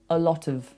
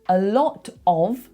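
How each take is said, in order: First: The word 'of' has a reduced schwa vowel. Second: The word 'of' has a full vowel. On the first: "often get schwas put into them" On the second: "A lot of becomes"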